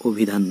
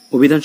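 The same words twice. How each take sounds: First: অভিধান as "o-bhidhan"; correct closed o. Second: অভিধান as "aw-bhidhan"; wrong open o. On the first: Teacher shows what we say, অভিধান with closed o. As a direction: start অভিধান on a rounded o. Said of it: "ও এর মতো করছি". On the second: Teacher shows what we don't say, অভিধান with open aw. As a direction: start অভিধান on a wide aw. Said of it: "অভিধান বলি না". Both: Shown as a demonstration.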